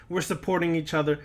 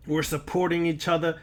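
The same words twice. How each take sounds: The two takes are said the same way.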